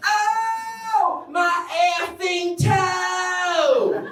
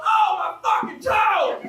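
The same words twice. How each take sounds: First: Sung, high sing-song, stretched slowly; sung, trill it out daintily like a song; prissy sung exclamation. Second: Exclaiming over a stubbed toe; mock pained yell. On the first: Pretend. Sung, comic mocking the polite swear, high sing-song. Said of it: "You can't go". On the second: Comic telling the crowd about a stubbed toe, mock yell. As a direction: let the pain out, half-shouted. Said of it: "you go".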